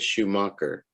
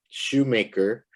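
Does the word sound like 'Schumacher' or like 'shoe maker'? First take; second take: Schumacher; shoe maker. First: It sounds like the surname Schumacher. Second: It sounds like shoe followed by maker. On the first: The speaker calls it wrong. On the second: The speaker calls it right.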